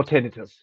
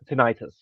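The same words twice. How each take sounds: First: "tinnitus" said TIN-i-tus; tinnitus with short I. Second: "tinnitus" said tin-EYE-tus; tinnitus with long I. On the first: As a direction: stress the first syllable of "tinnitus", short middle vowel. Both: Shown as a demonstration. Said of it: "or however it's pronounced".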